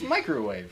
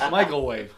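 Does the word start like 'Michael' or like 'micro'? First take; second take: micro; Michael. First: The first part sounds like micro. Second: The first part sounds like the name Michael. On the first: The speaker calls it right. "It's microwave" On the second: The speaker calls it wrong. "I used to think it was like Michael Wave"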